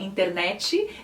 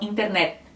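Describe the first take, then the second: First: An extra i vowel follows the final t. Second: The final t is barely sounded, no vowel added. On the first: This is how Brazilians usually say it. "no Brasil também a gente fala internet" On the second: This is how Spanish speakers usually say it. "É como se a T quase não fosse pronunciada"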